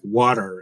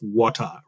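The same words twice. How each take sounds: First: It is said with an American movie-style accent. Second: It is said without an American movie-style accent.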